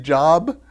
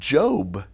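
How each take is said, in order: First: The vowel is short, as in 'rob'. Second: The vowel is long, as in 'robe'. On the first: The speaker calls it wrong. "it looks just like the word job" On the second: The speaker calls it right. "they pronounce it Job"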